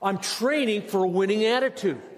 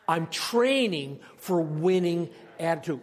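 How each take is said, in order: First: It is said with strong passion and energy. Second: It is said in a plain, calm way.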